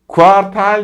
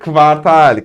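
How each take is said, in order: First: The word begins with a 'ku' sound. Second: The word begins with a 'kv' sound. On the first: The speaker calls it wrong. "Kuartal değil de" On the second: The speaker calls it right. "değil de kvartal"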